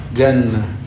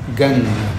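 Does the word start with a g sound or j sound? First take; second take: g sound; g sound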